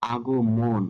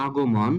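First: "আগমন" ending in rounded mon; closed o in the last syllable of "আগমন"; সঠিক উচ্চারণ. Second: "আগমন" ending in open mawn; ভুল উচ্চারণ. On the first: ("আগমন"-এ মন ও দিয়ে) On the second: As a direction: open vowel in the last syllable of "আগমন". ("আগমন"-এ মন খোলা অ দিয়ে) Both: Shown as a demonstration. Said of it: "এখানে সঠিক উচ্চারণটি হবে".

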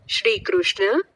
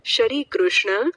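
First: "શ્રી" with sh and r joined in one cluster; written-form pronunciation. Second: "શ્રી" opened up into sha-ree; split-cluster pronunciation. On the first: Teacher showing how it is written, "શ્રી" said as tight shri. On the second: Teacher contrasting speech with spelling, "શ્રી" said as sha-ree. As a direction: slip a short vowel between sh and r in "શ્રી". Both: Shown as a demonstration. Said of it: "લખવાની રીત અને બોલવાની રીતમાં ફેર".

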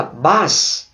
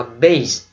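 First: "bass" rhyming with "pass"; short A for fish. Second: "bass" pronounced like "base"; long A for sound. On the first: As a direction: say "bass" with a short flat vowel, as in "glass". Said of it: "thì nó có nghĩa khác". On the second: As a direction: say "bass" as BAYSS. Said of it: "chữ này đọc là". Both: Shown as a demonstration.

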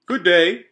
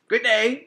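First: Loud, cheery raccoon greeting; a chubby raccoon says hi. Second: High, loud squeaky raccoon; the second brother, pitched up; higher raccoon voice. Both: A narrator's reading.

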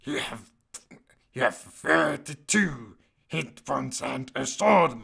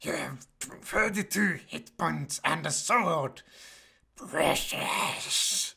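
First: Loud, badly faked creature voice; failed Gollum. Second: Slow creature voice ending in a hiss; retry the creature, hissing the last word; Gollum. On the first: Creature guide reads out stats, botched impression. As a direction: attempt the creature voice, missing it. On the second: Pretend. Second try at the creature guide, hissy impression. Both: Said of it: "that doesn't sound like Gollum at all".

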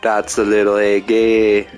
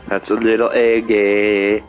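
The two takes are said the same way.

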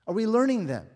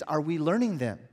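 First: Repeated louder, higher. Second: Said in the usual way. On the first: Real, not acted. Preacher repeating his question to the congregation, louder. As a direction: push the repeat up and out.

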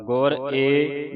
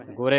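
First: ਗੁਰ ਏ slowly, as two separate words; separated words. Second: ਗੁਰੇ run together as one word; run-together reading. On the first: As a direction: break between ਗੁਰ and a long ਏ. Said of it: "ਵੱਖਰਾ ਵੱਖਰਾ ਪੜ੍ਹਨਾ ਹੈ". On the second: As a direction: join ਗੁਰੇ into a single quick word. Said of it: "ਪਰ ਵੱਖਰਾ ਵੱਖਰਾ ਪੜ੍ਹਨਾ". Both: Shown as a demonstration.

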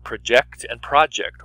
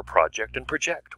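First: First "project" stressed on the second syllable, second "project" stressed on the first; "proJECT and PROject", slowly; verb then noun. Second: First "project" stressed on the first syllable, second "project" stressed on the second; noun then verb. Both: Shown as a demonstration. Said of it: "Which order do you put them in?".

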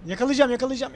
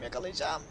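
First: Louder, eager repeated vow; real eager chase; determined excitement. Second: Softer, falling murmur of focus; quiet focused repeat; under the breath. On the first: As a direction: push it out with eagerness. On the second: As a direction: say it to yourself, tense. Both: Real, not acted. Chasing target in game.

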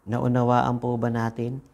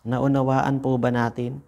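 Both takes have the same delivery.

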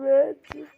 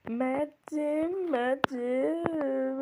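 First: Yelled name, losing patience; Mert'cim shouted out loud; loud call. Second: Said in the usual way. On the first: Real, not acted. Calling the baby, losing patience.

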